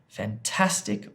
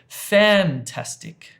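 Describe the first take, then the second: First: The stress is on the second syllable. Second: The stress is on the first syllable. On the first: "the second one" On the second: "this one"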